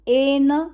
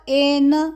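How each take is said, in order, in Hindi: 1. शब्द सीधे स्वर से शुरू होता है। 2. शब्द सीधे स्वर से शुरू होता है।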